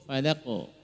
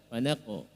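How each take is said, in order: First: The final q ends with a light echoing bounce. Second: The final q ends with a light echoing bounce.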